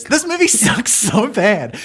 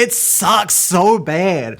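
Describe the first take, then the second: First: Higher, slower, theatrical whine; mock-dramatic complaint. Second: A long, slow moan of disappointment; drawn-out complaint. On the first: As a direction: overplay the disgust, pitched up. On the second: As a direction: stretch every word slowly, groaning. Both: Real, not acted. Groaning about a bad movie.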